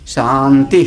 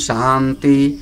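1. आखिरी अक्षर ऊँचे स्वर में है। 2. आखिरी अक्षर नीचे स्वर में है। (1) "अंतिम वाला ता उदात्त है" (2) "बीच वाले दोनों ता अनुदात्त हैं"

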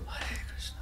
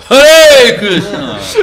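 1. Фраза произносится мягко и тихо. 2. Фраза произносится громко, почти криком. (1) "he's always saying it loud, so I had to go" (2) "every now and then on his own he'd go"

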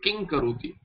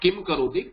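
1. पहला शब्द एक अनुनासिक ध्वनि पर खत्म होता है, जो 'क' में मिल जाती है। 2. पहला शब्द बंद होंठ वाले 'म' की ध्वनि पर खत्म होता है। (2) "not kim karoti"

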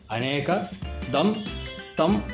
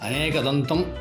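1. ముగింపుకు ముందు విరామంతో విడదీసి పలుకుతారు. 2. ఇది విరామం లేకుండా ఒకే పదంగా పలుకుతారు. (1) "కానీ అనేక దం తం అని పలకాలి" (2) "ఇంట్లో అందరూ అనేకదంతం అని పలుకుతారు"

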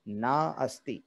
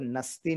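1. दोनों शब्द साफ़ तौर पर अलग-अलग बोले जाते हैं। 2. दोनों शब्द जुड़कर एक छोटा शब्द बन जाते हैं। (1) "बिल्कुल शुद्ध अलग अलग बोल सकते हैं" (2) "इसको नस्ति नहीं कह सकते"

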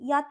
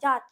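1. শব্দটা 'y' ধ্বনি দিয়ে শুরু। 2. শব্দটা 'j' ধ্বনি দিয়ে শুরু।

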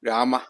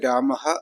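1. ഈ പദം h ഇല്ലാത്ത സ്വരാക്ഷരത്തിൽ അവസാനിക്കുന്നു. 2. ഈ പദം കേൾക്കാവുന്ന h ശബ്ദത്തിൽ അവസാനിക്കുന്നു. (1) "പലരും രാമ രാമ എന്നൊക്കെ വായിക്കാറുണ്ട്. അത് ഉച്ചാരണ നിയമം അനുസരിച്ചത് ശരിയല്ല" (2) "അപ്പോൾ അത് രാമഹ എന്ന് തന്നെ വായിക്കണം"

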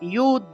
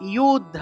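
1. শব্দটি y ধ্বনি দিয়ে শুরু হয়। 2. শব্দটি y ধ্বনি দিয়ে শুরু হয়।

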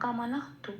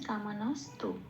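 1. 'tu' এর আগে h ধ্বনি আছে। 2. 'tu' এর আগে s ধ্বনি আছে। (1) "এরম কামানাহতু" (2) "কামানস তু এটা বলতে হবে"

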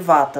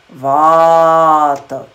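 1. A primeira vogal é curta. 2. A primeira vogal é longa. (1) "todo mundo chama de Vata" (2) "mas é Vata. No IAST, isso vai ficar V, A com um tracinho em cima"

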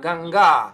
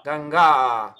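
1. Конечный гласный долгий. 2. Конечный гласный долгий.

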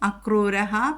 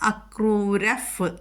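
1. ഈ വാക്ക് പൂർണ്ണമായ ശ്വാസം കലർന്ന 'h' ശബ്ദത്തിലാണ് അവസാനിക്കുന്നത്. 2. ഈ വാക്ക് മൃദുവായ 'f' പോലുള്ള ചുണ്ടിന്റെ ശബ്ദത്തിലാണ് അവസാനിക്കുന്നത്.

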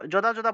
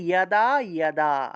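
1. শব্দটি 'j' ধ্বনি দিয়ে শুরু হয়। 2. শব্দটি 'y' ধ্বনি দিয়ে শুরু হয়। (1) "আমরা তো যদা যদা বলে ফেলি, এটা যদা যদা হবে না" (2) "জ থাকলে ইয়, তাহলে ইয়াদা ইয়াদা"

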